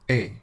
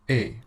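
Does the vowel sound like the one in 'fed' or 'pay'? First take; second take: pay; pay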